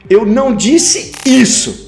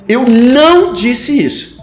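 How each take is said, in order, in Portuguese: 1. A ênfase cai na palavra isso. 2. A ênfase cai na palavra não. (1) "eu disse aquilo, mas isso que você está dizendo que eu disse, eu não disse" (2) "coloco a ênfase no não"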